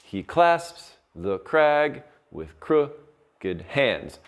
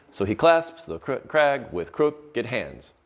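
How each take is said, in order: First: Slow, each stressed syllable hit; stressed scansion reading. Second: Slow, beats on "clasps", "crag" and "hands"; metered reading. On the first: Teacher marking out the meter for students, slow stressed reading. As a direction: read it slowly, punching "clasps", "crag", "crooked" and "hands". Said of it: "the way this one would be marked out is". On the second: Teacher repeating the line to show its meter, slow beats. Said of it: "That's meter". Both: Shown as a demonstration.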